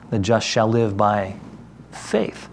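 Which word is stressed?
faith. The stress is on "faith".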